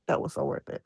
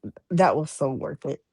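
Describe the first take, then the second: First: Breathy whispered repeat of "That was so worth it"; quiet whispered echo, "That was so worth it". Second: Said in the usual way. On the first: Real, not acted. Repeated phrase, second whispered.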